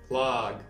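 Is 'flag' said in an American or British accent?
British. The vowel is open, closer to an 'a' sound. "Британский вариант больше акцента ставит на звук A"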